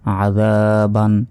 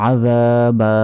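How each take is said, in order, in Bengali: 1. শব্দটি n ধ্বনি দিয়ে শেষ হয়। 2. শব্দটি দীর্ঘ স্বর দিয়ে শেষ হয়।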